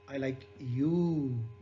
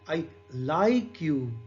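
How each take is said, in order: First: The stress is on the word you. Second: The stress is on the word like. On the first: "And in third" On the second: "Second is"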